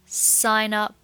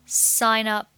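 Both takes have the same delivery.

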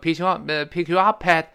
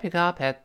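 First: The words are stressed forcefully and separately. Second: The words are light and linked together. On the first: The speaker calls it wrong. "不能说pick you up at pat，那不行" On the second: The speaker calls it right. "非常轻。轻轻连在一块儿"

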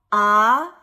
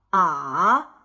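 First: The pitch rises from mid to high. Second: The pitch dips low, then rises. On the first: "3 到5 的阳平" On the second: "2 到1 到4 的赏声"

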